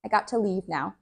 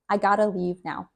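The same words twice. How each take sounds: First: "got to" with a clear t; careful "got to" as two words; full got to. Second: Relaxed "gotta" as one word; reduced gotta. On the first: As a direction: hit the t in "got to". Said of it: "here you do hear the T". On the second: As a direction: blend "got to" into "gotta". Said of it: "we say gotta". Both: Shown as a demonstration.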